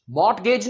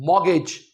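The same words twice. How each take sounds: First: मॉर्गेज with the t sounded, "mort-gej"; wrong mortgage. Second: मॉर्गेज as "mor-gej", no t; silent t mortgage. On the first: Teacher marking the t in mortgage wrong. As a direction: sound the t in मॉर्गेज to show the mistake. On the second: Teacher reminding students of mortgage. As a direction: say मॉर्गेज without the t. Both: Shown as a demonstration. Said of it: "मॉर्गेज नहीं".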